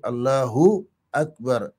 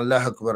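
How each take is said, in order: First: The 'u' after Allah is clearly pronounced. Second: The 'u' after Allah is dropped, words contracted. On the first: The speaker calls it right. "Il n'y a pas de contraction. C'est Allahu Akbar" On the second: The speaker calls it wrong. "c'est pas Allah Akbar, comme disent les gens"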